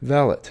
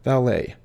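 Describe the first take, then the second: First: Valet said VAL-et, t sounded; correct pronunciation. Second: Valet said val-AY; common mispronunciation. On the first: Teacher showing viewers the right way. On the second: Teacher showing viewers the wrong way. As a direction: say valet ending in -ay. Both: Shown as a demonstration. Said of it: "often mispronounced as valet".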